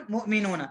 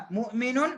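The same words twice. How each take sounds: First: مؤمنون said whole with a clear final ن and falling close; full settled take. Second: مؤمنون said short and rising, final ن barely sounded; clipped first take. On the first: Teacher repeats the plural cleanly for students to copy. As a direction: finish مؤمنون firmly, every sound in place. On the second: Teacher tries the word once before repeating it clearly. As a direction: toss off مؤمنون quickly with a rising lilt. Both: Shown as a demonstration. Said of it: "یہ ٹوٹتی نہیں ہے".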